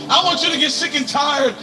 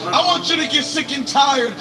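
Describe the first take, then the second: No difference in how they are said.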